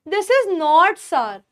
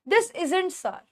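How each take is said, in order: First: 'Is not' is said as two full words. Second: 'Is not' is shortened to one word, isn't.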